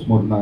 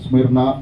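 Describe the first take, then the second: First: The vowel after 'Sm' sounds like 'u'. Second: The vowel after 'Sm' sounds like 'i'. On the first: This is the form used in Telugu. "Telugu బైబిల్లో స్ముర్ణ అని ఉంది" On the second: This is the form used in English. "English బైబిల్లో స్మిర్న అని వ్రాయబడ్డది"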